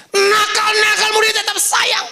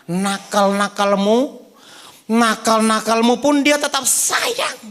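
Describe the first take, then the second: First: High, loud and ringing; shouted preaching. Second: Slow and gentle, drawing it out; slow tender preaching. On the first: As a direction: proclaim it to the whole room. Same line repeated, shouted. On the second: Preaching line, then repeated shouted. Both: Acted.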